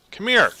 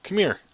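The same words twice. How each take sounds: First: Louder, high-pitched "come here"; insistent high call. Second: Higher-pitched "come here"; high beckoning call. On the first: Player calling an enemy closer, loud and insistent. Repeats the call more forcefully. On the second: Player calling an enemy closer, high beckoning. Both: Real, not acted.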